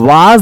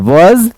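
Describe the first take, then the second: First: The vowel is a long open 'ah'. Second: The vowel is a short rounded 'aw'. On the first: The speaker calls it wrong. "ये गलत है" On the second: The speaker calls it right. "ये सही pronunciation है"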